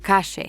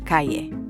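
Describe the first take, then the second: First: The double L is a 'sh' sound. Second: The double L is not a 'sh' sound. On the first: This is how Argentines say it. "with a sh sound" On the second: This is the usual pronunciation elsewhere. "instead of"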